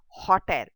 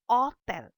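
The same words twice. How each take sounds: First: The word begins with an audible h sound. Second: The word begins directly with the vowel. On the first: The speaker calls it wrong. "It is not hotel" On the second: The speaker calls it right. "you keep the H silent"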